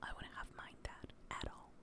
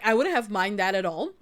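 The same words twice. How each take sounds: First: It is whispered. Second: It is said in a normal voice.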